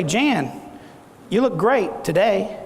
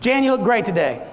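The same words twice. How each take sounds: First: "look GREAT" drawn out slowly, with a pause after "Jan"; drawn-out insinuation. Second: Said in the usual way. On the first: Shown as a demonstration. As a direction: stretch "you look great today" slowly, loading it with a second meaning. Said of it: "Did I say the same words". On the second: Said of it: "Or I could say".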